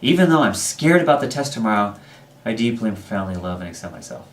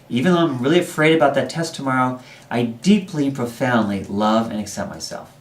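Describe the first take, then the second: First: Strong energy at first, fading off at the end. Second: Strong energy is put into the second half.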